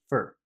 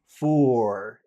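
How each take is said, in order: First: The vowel is short and reduced. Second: The vowel is long and full. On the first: The word sits inside a sentence. "in the middle of a sentence, it's never it's almost never big. It's just for" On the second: The word stands alone. "if you say the word alone, for, it is actually big"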